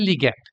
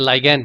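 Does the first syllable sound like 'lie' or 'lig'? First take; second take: lig; lie. First: The first syllable has a short 'i' sound. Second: The first syllable has a long 'eye' sound. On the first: "তাদেরকে বলা হয় লিগ্যান্ড" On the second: "কেউ কেউ এটাকে pronounce করে থাকে লাইগ্যান্ড বলে"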